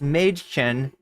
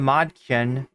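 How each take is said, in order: First: The first vowel is a fronted umlaut vowel. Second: The first vowel is a plain open 'ah'. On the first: The speaker calls it right. "what happens when you put the umlaut over the A" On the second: The speaker calls it wrong. "which is how I always want to say it"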